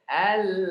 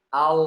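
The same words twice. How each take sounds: First: The L sounds light, without a raised tongue. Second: The L sounds heavy, with the tongue raised. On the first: The speaker calls it right. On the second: The speaker calls it wrong.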